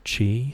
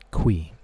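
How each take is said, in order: First: The name sounds like 'chee'. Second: The name sounds like 'kwee'. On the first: This is what other people called him. "Other people would call him Mister Chi" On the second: This is the pronunciation the creator revealed. "The pronunciation of this word right here, this name, is Qui"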